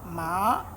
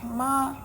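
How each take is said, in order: First: The pitch rises from middle to high. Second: The pitch stays high and level. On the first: "we have the rising tone" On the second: "We have the flat tone"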